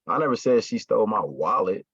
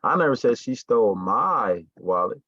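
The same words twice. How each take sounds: First: The word "wallet" carries the emphasis. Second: The word "my" carries the emphasis. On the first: Something other than the wallet was stolen. "meaning it wasn't my wallet, but it was something else" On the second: Someone else's wallet was stolen. "She didn't steal mine, but she stole one of y'all's"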